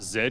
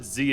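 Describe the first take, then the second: First: The letter is said the British way, zed. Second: The letter is said the American way, zee.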